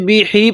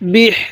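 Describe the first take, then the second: First: The word ends with an added vowel i. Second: The word ends on the consonant sound h. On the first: The speaker calls it wrong. "এরকম ভাবে পড়বো না, এটা সহি না।" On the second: The speaker calls it right. "এখানে বা লাগবে হায়ের সাথে।"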